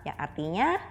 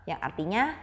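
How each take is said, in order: The two takes are said the same way.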